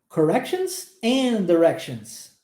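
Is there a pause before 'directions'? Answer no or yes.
no. The words run together with no pause. The speaker calls it right. "não existe uma pausa entre a palavra and e a palavra directions"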